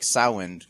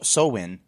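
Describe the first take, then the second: First: It has no M and the vowel of 'cow'. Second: It has no M and the vowel of 'glow'. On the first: "There's no M pronouncing it. kind of like the ow and cow" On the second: "like glow in"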